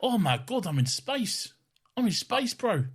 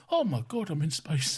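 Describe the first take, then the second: First: A higher, laid-back New Zealand accent for the space line. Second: Put-on a higher, wide-eyed old granddad in awe; old man voice. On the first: Shown as a demonstration. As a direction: show how a real New Zealand accent sounds, ending on bro. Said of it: "if I was doing a New Zealand accent". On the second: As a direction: play an amazed old man seeing space for the first time. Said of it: "I was just doing a, an old man".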